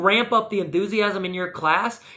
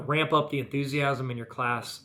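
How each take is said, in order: First: It is said louder with more energy. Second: It is said quietly with low energy. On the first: The speaker calls it right. "I raise my voice just a little bit" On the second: The speaker calls it wrong. "if I was shooting this video and I was doing this"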